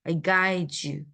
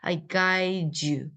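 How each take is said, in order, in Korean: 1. d와 y가 합쳐져서 j 같은 소리가 나요. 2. d와 y가 합쳐져서 j 같은 소리가 나요.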